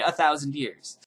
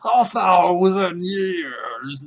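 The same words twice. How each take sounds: First: It is said in a plain normal speaking voice. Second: It is said in a drawn-out comical character voice. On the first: The time sounds less long ago. "than if you say" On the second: The time sounds much longer ago. "it sounds much longer ago if you say a thousand years"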